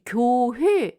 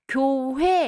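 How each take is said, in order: First: The last vowel is a single rounded vowel. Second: The last vowel is said as a glide diphthong. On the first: This is an older pronunciation that is disappearing. "이렇게 발음 안 하잖아요" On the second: This is the everyday modern pronunciation. "우리가 교회 이러지"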